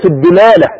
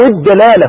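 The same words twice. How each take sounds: First: "الدلالة" with an i after the dal, dilala; kasra variant. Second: "الدلالة" with an a after the dal, dalala; fatha variant. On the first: Preacher showing two valid forms, "الدلالة" pronounced dilala. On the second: Preacher offering the other valid form, "الدلالة" pronounced dalala. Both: Shown as a demonstration. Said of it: "واللغتان صحيحتان بالفتح والكسر".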